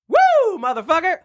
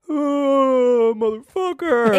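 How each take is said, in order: First: It is said in an ecstatic tone. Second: It is said in a sad tone.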